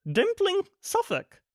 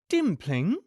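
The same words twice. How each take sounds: First: Dimpling read high and falling, as a plain address. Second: Dimpling asked with a rising questioning tune; puzzled question. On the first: Nanny reads the address from the cart, Dimpling high and falling. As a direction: read the place name off the label. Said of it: "she read out". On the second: Missus Dearly echoes the place name, rising puzzled question. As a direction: ask it back, puzzled. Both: A narrator's reading.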